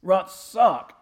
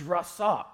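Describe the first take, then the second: First: Rasak pronounced loudly for demonstration; emphatic Hebrew rasak. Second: Rasak pronounced as a Hebrew term; Hebrew word rasak. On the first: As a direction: punch out the Hebrew word rasak. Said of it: "that's how they say it". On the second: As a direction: say rasak as two syllables, in usual volume. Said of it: "this is the correct pronunciation". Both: Shown as a demonstration.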